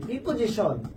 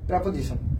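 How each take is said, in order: First: The first vowel sounds like ee. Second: The first vowel is a short uh. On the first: The speaker calls it wrong. "এটা আমরা উচ্চারণ করি কি" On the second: The speaker calls it right. "এটাকে বলা হয় প্রাপোজিশন। কি বলা হয়"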